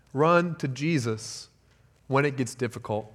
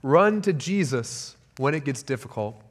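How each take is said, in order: First: "Run to Jesus" said slowly and softly, every word weighed; soft slow emphatic repeat of "Run to Jesus"; slow quiet repeat. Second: Said in the usual way. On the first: Shown as a demonstration. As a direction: lean in and repeat "Run to Jesus when it gets difficult" slowly, hushed.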